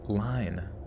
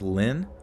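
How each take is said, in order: First: The vowel is long, rhyming with fine. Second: The vowel is short, rhyming with fin. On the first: The speaker calls it wrong. "pronounce the name Lynn like line" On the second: The speaker calls it right. "L Y N E is actually pronounced like Lynn"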